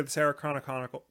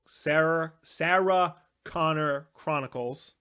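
First: Rushed, clipped-off Chronicle- stumbling over the name; fumbled title. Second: Said in the usual way. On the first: Real, not acted. Correcting himself on the show's title to co-host, rushed stumble. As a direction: trip over "Chronicle-" and cut it short. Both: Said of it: "other people screw up saying that".

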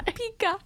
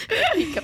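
First: Put-on pika said high, PEE-kuh, like a three-year-old; mock toddler word. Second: Pika said high and bright, PEE-kuh; mock toddler word. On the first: Teasing a friend, mimicking a toddler saying pink eye. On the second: Teasing a friend, repeating the toddler word pika. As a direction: chirp pika like a little kid. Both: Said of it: "pink eye".

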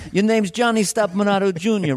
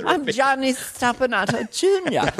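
First: Insistent New York father, pitched up; New York actor dad. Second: Dainty British echo of dad; British-accented child. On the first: New York actor correcting his son's speech, insistent. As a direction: drill it in with New York accent. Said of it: "a thing about a New York actor". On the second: Son repeating his name for dad, prim British accent. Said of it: "developing a British accent". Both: Acted.

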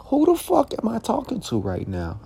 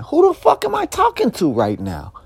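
First: The same "Who the fuck am I talking to right now?" still high but dropped in volume; stunned, quieter disbelief. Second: "Who the fuck am I talking to right now?" yelled much higher, "fuck" hit hard; outraged high yell. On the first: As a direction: ask it again, baffled now rather than yelling. Repeats outraged question, softer. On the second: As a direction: shout it up high in disbelief. Repeats outraged question twice. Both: Retold or imitated.

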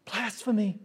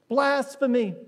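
First: Muttered thought. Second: Said in the usual way. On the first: Retold or imitated. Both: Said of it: "all thinking".

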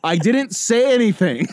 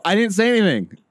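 First: Louder repeat. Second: Said in the usual way. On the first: Retold or imitated. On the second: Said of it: "And I go".

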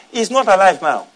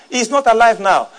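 No difference in how they are said.

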